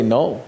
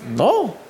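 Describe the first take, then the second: First: Said in the usual way. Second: Mildly angry NO, pitched up sharply; angry refusal. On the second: Retold or imitated. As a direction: say NO as a touchy, rising-and-falling refusal. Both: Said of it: "I was angry with God".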